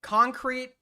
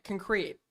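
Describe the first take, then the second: First: "Concrete" said a bit higher, first syllable KAHN-crete; "Concrete" with open KAHN first syllable; own pronunciation again. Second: "Concrete" said softly with weak first syllable, KUHN-crete; "Concrete" with a light, quick first syllable; own pronunciation. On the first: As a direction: repeat "Concrete" as KAHN-krete. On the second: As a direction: say "Concrete" the way he always does, kuhn-KREET. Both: Shown as a demonstration. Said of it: "That's how I say it".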